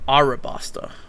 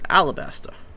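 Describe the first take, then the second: First: The second consonant is an R sound. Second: The second consonant is an L sound.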